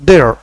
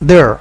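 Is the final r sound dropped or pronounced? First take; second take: pronounced; pronounced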